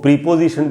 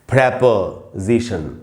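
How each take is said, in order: First: The first syllable has a long 'ee' vowel. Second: The first syllable has a short 'eh' vowel. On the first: The speaker calls it wrong. "इसको प्रीपोजिशन बिल्कुल नहीं बोलना चाहिए" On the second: The speaker calls it right. "इसका उच्चारण जो सही है वो है प्रेपोजिशन"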